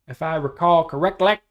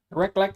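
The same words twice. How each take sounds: First: Eastbound and Down quote. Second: Echoed Eastbound and Down line. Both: Retold or imitated. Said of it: "Anyways, that's from that".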